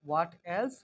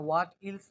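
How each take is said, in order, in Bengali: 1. 'else' এর স্বরধ্বনিটি 'eh' এর মতো শোনায়। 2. 'else' এর স্বরধ্বনিটি 'ee' এর মতো শোনায়। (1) "হ্যাঁ হোয়াট এলস" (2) "না হোয়াট ইলস না"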